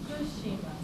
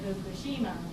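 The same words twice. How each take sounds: First: The first syllable is whispered, then pitch falls. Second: The first syllable is voiced, with no fall after. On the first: The speaker calls it right. "you have to whisper food. So it's and there is a pitch fall after food" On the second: The speaker calls it wrong. "Now you don't say Fukushima. That's what you used to say"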